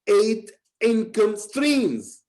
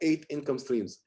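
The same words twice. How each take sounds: First: The word eight is said with strong emphasis. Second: The word eight is said plainly, without emphasis. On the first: The speaker calls it right. "I emphasize" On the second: The speaker calls it wrong. "not eight income streams"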